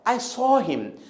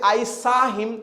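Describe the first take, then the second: First: The vowel in 'saw' is said with rounded lips. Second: The vowel in 'saw' is an open, unrounded 'ah'. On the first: The speaker calls it right. "मुंह को गोला करके बोलना पड़ेगा" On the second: The speaker calls it wrong. "तो ये गलत है"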